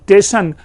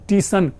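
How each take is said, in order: First: The s is dropped, starting with 'te'. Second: The s is dropped, starting with long 'tee'. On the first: "क्षेत्रीय प्रभाव के कारण" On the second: "क्षेत्रीय प्रभाव के कारण"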